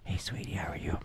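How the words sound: It is said in a whisper.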